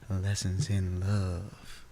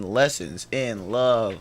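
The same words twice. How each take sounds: First: It is said softly. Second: It is said at normal loudness.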